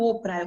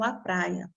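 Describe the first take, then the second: First: "ô praia" with a stressed ô; wrong form. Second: "a praia" lower, plain a; right form. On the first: Teacher contrasting the wrong "ô praia". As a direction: show "ô praia" as the error. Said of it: "Eu não falo". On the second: Teacher giving the correct "a praia" after the error. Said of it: "eu falo". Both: Shown as a demonstration.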